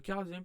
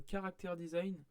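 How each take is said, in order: First: "character design" said as the English word character; English "character" replacing "caractère"; English correction. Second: "caractère design" said with the French word caractère; mispronounced "caractère design", French style; French pronunciation slip. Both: Real, not acted.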